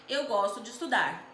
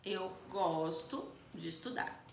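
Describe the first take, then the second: First: Said in the usual way. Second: Slow, soft, nodding emphasis on gosto; calm affirming demo; slow affirmative demo. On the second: Shown as a demonstration. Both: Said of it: "essa expressão".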